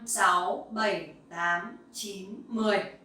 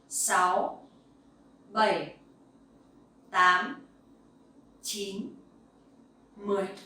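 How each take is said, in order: First: The numbers are counted at a very fast pace. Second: The numbers are counted at a faster pace.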